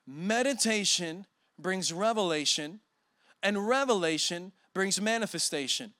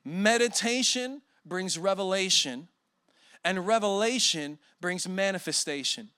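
First: "Meditation" rising, then settling; repeated slowly. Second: Slow, deliberate stress on Meditation; "Meditation" weighted, phrase measured; slow dictation. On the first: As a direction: say it again to memorize. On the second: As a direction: spell it out for note-taking. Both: Shown as a demonstration. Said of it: "Write this down or just memorize it".

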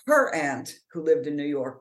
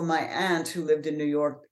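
First: "her" punched in correction; stress on HER. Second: Said in the usual way. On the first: Real, not acted. Correcting whose aunt it was, stress on "her". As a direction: hit the word "her", then carry on as usual.

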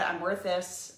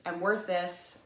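First: Said in the usual way. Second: "I'm worth this" said slowly, leaning on worth; slow emphatic repeat of "I'm worth this"; slow, firm affirmation. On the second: Shown as a demonstration. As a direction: drag it out and land hard on worth. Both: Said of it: "Put 'I'm worth this' in the comments".

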